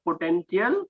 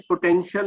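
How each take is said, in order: First: "potential" with a hard t, po-ten-ti-al; wrong pronunciation. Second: "potential" with a sh sound, po-ten-shal; correct pronunciation. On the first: English teacher shows student's mistake, "potential" with a hard t. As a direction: say "potential" with t where sh belongs. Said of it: "not ta". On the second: English teacher explains the rule, "potential" said with sh. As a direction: say "potential" with sh, not t. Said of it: "comes with the sound of sh". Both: Shown as a demonstration.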